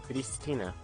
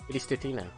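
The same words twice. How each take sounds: No difference in how they are said.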